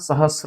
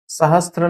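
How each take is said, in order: First: No 't' sound comes before the 'r'. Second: A 't' sound comes before the 'r'. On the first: The speaker calls it right. "सहस्र होता है" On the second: The speaker calls it wrong. "सहस्त्र नहीं होता"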